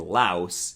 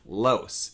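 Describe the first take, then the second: First: The diphthong starts from a lower, open vowel. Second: The diphthong starts from a higher, raised vowel. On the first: This is how Americans say it. "and louse if you don't" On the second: This is how many Canadians say it. "will be pronounced as louse if you follow this rule"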